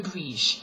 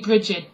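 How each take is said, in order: First: The name is said in an Irish pronunciation. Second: The name is said in the common pronunciation. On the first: "That's how the Irish tend to pronounce it" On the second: "A lot of people say Brigid"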